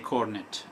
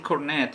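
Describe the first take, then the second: First: It is said the British way. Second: It is said the American way.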